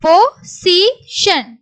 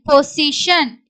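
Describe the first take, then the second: First: Slow, higher, separated syllables. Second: Said in the usual way. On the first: Shown as a demonstration. Teacher sounds out the word for learners, syllable by syllable. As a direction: break "position" into three distinct pieces.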